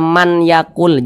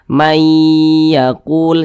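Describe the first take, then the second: First: The n sound is pronounced before the y. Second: The n merges into a doubled, nasalized y. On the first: The speaker calls it wrong. "jangan dibaca man yakul" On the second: The speaker calls it right. "tapi dibaca mayyakul"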